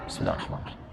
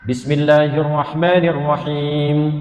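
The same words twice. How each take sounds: First: It is recited very quietly, almost silent. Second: It is recited aloud, clearly voiced.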